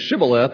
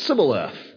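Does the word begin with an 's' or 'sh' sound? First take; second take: sh; s. First: The word begins with a 'sh' sound. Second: The word begins with an 's' sound. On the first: The speaker calls it right. "Instead of having the H as Shibboleth" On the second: The speaker calls it wrong. "they would say Sibboleth"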